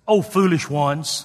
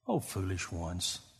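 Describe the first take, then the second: First: It sounds harsh and scolding. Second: It sounds gentle and tender.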